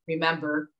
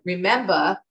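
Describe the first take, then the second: First: Said in the usual way. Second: "remember" ending in AH, no R; Jersey pronunciation. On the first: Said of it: "in the A". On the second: Shown as a demonstration. Daughter demonstrates mom's word, "remember" without final R. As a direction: say "remember" as a Jersey mom would, remem-BAH. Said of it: "And then she talked about".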